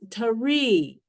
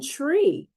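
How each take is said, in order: First: An extra vowel splits the consonant cluster. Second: The consonants are said together without a vowel. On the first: The speaker calls it wrong. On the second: The speaker calls it right.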